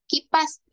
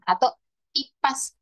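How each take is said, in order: First: The word begins with a k sound. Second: The word begins with a vowel, no k.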